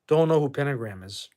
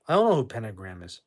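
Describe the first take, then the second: First: Hushed voiceless whisper. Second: Said in the usual way. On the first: Real, not acted. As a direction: breathe it as a voiceless aside. Whispered aside, then repeated aloud.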